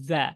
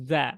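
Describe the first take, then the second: Both takes have the same delivery.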